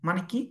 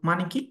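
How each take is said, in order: No difference in how they are said.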